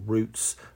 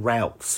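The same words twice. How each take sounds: First: The word is said with a non-American pronunciation. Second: The word is said with an American pronunciation. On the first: The speaker calls it right. "as we say" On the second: The speaker calls it wrong. "I hate that pronunciation that the Americans have"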